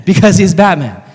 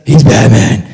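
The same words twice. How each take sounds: First: Said in the usual way. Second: Slow, husky superhero growl; Batman. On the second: Acted. Explaining why he fights crime every night, in a slow gruff hero voice. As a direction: growl it slowly for emphasis. Repeats the Batman voice, then normally.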